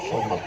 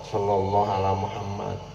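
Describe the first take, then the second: First: The phrase is rushed and clipped into one word. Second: The phrase is said fully at a steady pace.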